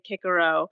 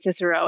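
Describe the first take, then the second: First: The name begins with a hard K sound. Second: The name begins with a soft S sound. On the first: This is the original Latin form. "we don't say" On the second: This is the usual English form. "We say"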